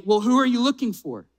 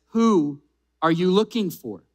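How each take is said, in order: First: Lightly teasing question with a smirk. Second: Said in the usual way. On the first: Acted. Jesus asking Mary who she seeks, with a slight smirk. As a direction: ask it knowingly, quick and playful. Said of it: "kind of having a smirk on his face". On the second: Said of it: "I can imagine Jesus".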